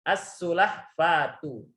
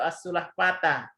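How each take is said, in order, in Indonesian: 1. Kata ini diakhiri vokal u. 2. Kata ini diakhiri vokal a. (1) "Harus membacanya" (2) "nggak boleh dibaca"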